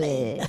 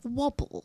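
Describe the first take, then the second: First: It is said in a German accent. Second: It is said in a British accent.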